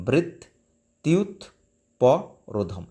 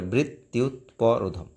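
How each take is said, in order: First: বৃত্তুৎপরোধম split very slowly, syllable by syllable; broken into syllables. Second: বৃত্তুৎপরোধম joined in one smooth run; said together. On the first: Teacher splitting the word for students, very slow. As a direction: break বৃত্তুৎপরোধম into its pieces, very slow. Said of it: "বৃত্ত ভেঙে উচ্চারণ করবে". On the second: Teacher joining the word back together for students. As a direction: say বৃত্তুৎপরোধম whole, unbroken. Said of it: "তারপর একসঙ্গে বলে". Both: Shown as a demonstration.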